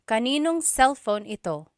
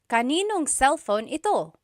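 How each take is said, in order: First: The words are run together and shortened. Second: The same.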